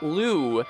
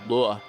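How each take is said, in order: First: The vowel is long, like in Luke. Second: The vowel is short, like in book. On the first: The speaker calls it wrong. "Not Lu. It's not Luke" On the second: The speaker calls it right. "It's the little strut, the same one in book"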